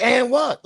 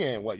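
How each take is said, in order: First: High, louder, rude "And what?"; mock rude yell. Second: Said in the usual way. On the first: Mocking the caller yelling at the dispatcher, high and loud. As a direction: bark "And what?" back like you can't be bothered. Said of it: "You screaming at the dispatcher". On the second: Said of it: "Like, what you mean".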